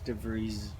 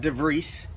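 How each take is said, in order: First: The name ends with a soft Z sound. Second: The name ends with an S sound. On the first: The speaker calls it right. "It's DeVries. Yeah, just it's a soft Z" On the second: The speaker calls it wrong. "not DeVries"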